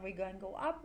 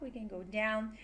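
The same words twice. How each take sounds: First: "up" lifted at the end; rising tune. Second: "down" dropped at the end; falling tune. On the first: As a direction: let "up" rise. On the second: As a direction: let "down" fall. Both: Shown as a demonstration.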